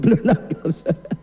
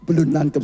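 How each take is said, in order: First: Laughing. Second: Said in the usual way. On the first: Real, not acted. Preacher teases slow congregation.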